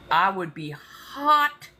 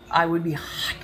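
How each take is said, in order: First: Slow drawled Southern "hot". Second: Said in the usual way. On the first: Real, not acted. Fuming at toll roads, slow Southern drawl. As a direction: draw out "hot" like a riled Southerner. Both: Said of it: "the Southern starting to come out".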